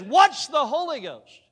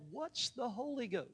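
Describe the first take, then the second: First: Higher, louder, slow, hitting "What's"; incredulous repeat. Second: Said in the usual way. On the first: Retold or imitated. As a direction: repeat it in disbelief, stretching it out. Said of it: "But she says". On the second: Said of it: "She said".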